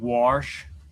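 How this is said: Wash is said with a regional pronunciation. "I do have a habit of saying wash"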